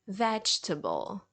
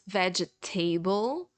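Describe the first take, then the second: First: The middle e is silent, giving three syllables. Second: The ending is said like the word table. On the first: The speaker calls it right. "but it's vegetable ... You just ignore this letter" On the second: The speaker calls it wrong. "or even worse, vegetable, because you see the word table"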